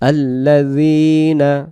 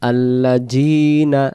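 First: The middle consonant is a soft z sound. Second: The middle consonant is a hard j sound. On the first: The speaker calls it right. "জালাক্ষর নরম করে" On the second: The speaker calls it wrong. "তখন যেন জিম চলে আসে"

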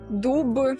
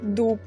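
First: The final consonant is voiced, like b. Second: The final consonant is devoiced, like p. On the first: The speaker calls it right. "чітко кажуть «дуб»" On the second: The speaker calls it wrong. "а не «дуб»"

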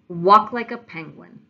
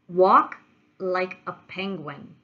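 First: The phrase is spoken at a faster pace. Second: The phrase is spoken at a slower pace.

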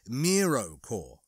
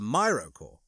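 First: The first syllable sounds like 'mee'. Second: The first syllable sounds like 'my'. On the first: The speaker calls it right. "it's pronounced Miro-core" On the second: The speaker calls it wrong. "rather than Myro-core, as I said previously"

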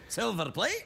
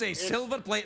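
First: The voice rises at the end like a question. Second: The voice falls at the end like a statement.

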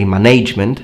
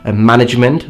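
First: The stress falls on a later syllable. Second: The stress falls on the first syllable. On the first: The speaker calls it wrong. "they say management" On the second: The speaker calls it right. "many Italians do mispronounce the word management"

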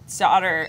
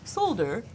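First: The word is said without an L sound. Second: The word is said with an L sound.

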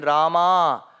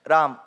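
First: It is said in a South Indian way. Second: It is said in a North Indian way. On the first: "the South Indian version Rama, Govinda, wrong" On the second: "the North Indian version, Ram, Govind, Krish, that is also wrong"

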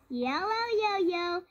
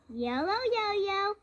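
Both takes have the same delivery.

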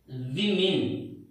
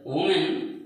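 First: The word is pronounced as the plural 'women'. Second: The word is pronounced like the singular 'woman'. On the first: The speaker calls it right. "the right pronunciation is women" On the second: The speaker calls it wrong. "It's not woman"

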